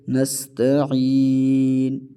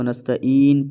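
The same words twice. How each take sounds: First: "نستعین" slowly, ain from mid-throat, long final ee. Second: "نستعین" with hamza in place of ain. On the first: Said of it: "عین کو گلے کے درمیان سے". ("نستعین" عین گلے کے درمیان سے) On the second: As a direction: say "نستعین" as nasta-een, no throat ain. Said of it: "عین کو ہم حمزہ پڑھ لیتے ہیں". ("نستعین" عین کی جگہ حمزہ) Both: Shown as a demonstration.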